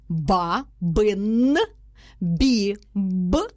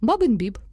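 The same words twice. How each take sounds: First: Each syllable is said separately with breaks. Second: The two words run together without a pause. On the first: "Ми її розкладаємо на склади" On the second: "Потім ми по два слова"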